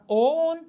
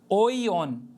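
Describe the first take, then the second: First: The i sound is not pronounced. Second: The i sound is pronounced after the vowel. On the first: "essa é a forma comum" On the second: "e aí sim nós vamos lê-lo"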